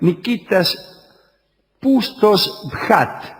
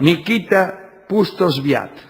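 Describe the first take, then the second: First: The name is said with a throaty kh sound. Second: The name is said without a throaty kh sound. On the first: The speaker calls it wrong. "o mejor todavía... eso de pronunciarla ahí como J" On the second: The speaker calls it right. "digamos mejor como yo decía antes"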